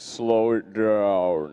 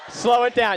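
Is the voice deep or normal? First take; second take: deep; normal. First: It is said in a deeper voice. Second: It is said in a normal voice.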